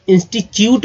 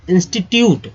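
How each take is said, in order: First: इंस्टीट्यूट said as "insti-chyut", with a ch sound; the common wrong "insti-chyut" way of saying इंस्टीट्यूट; wrong pronunciation demo. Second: इंस्टीट्यूट said "insti-tyoot", with a clear hard t; careful correct "insti-tyoot" for इंस्टीट्यूट; correct pronunciation. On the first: Teacher showing students the wrong way: इंस्टीट्यूट said "insti-chyut". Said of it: "जो कि गलत उच्चारण करते हैं". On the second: Teacher giving the right form: इंस्टीट्यूट said "insti-tyoot". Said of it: "क्या होगा उच्चारण?". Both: Shown as a demonstration.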